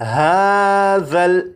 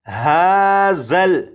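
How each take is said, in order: First: The middle consonant is soft, without hissing. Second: The middle consonant has a hissing whistle. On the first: The speaker calls it right. "ज़ाल को नरमी से पढ़ेंगे, यानी सीटी की आवाज़ के बग़ैर" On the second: The speaker calls it wrong. "इस तरह से नहीं पढ़ेंगे"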